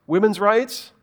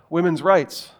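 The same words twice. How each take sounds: First: Women's rights? rising at the end like a doubtful question; questioning rise. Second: Said in the usual way. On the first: Shown as a demonstration. Preacher echoing the phrase as if ancients doubted it, rising. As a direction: ask Women's rights? as if the idea sounds odd.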